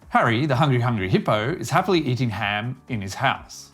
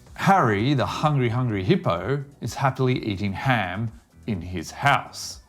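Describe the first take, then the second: First: The sentence is spoken quickly. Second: The sentence is spoken slowly. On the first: "another time quickly" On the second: "once slowly"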